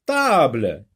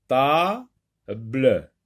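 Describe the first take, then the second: First: Said in the usual way. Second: "table" as "ta... ble", with a gap; teacher separating "ta" from "ble" in "table"; split into syllables. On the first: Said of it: "donc on garde la deuxième syllabe". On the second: Shown as a demonstration. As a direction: break "table" after a long "ta". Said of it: "Dans ta, oui, on entend".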